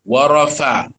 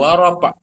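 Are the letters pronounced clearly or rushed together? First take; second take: clear; rushed. First: Each letter is pronounced clearly and fully. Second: The letters are rushed and run together. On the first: The speaker calls it right. "Fa dulu baru kepada ain mati" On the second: The speaker calls it wrong. "Bukan wa rafa'"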